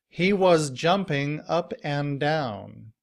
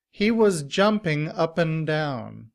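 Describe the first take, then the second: First: The word 'and' is said fully and clearly. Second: The word 'and' shrinks to 'n' after 'up'. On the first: "in citation form we have this sentence" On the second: "in reduced form, and is pronounced un ... it sounds like upp'n"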